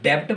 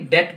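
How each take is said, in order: First: A b sound is pronounced before the t. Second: No b sound is pronounced before the t. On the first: The speaker calls it wrong. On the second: The speaker calls it right.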